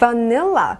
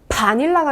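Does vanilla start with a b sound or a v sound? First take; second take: v sound; b sound. First: The word starts with a lip-biting v sound. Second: The word starts with a Korean-style b sound. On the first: The speaker calls it right. "바닐라 발음이고요" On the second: The speaker calls it wrong. "바닐라가 아니라"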